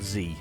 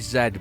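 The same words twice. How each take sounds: First: The letter is said in a non-British way. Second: The letter is said in a British way. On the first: The speaker calls it wrong. "not Z" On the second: The speaker calls it right. "it's definitely Z, by the way. That's that's the British way of saying a Z"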